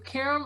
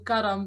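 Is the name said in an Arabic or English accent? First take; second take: English; Arabic. First: The name is said with English sounds. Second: The name is said with Arabic sounds.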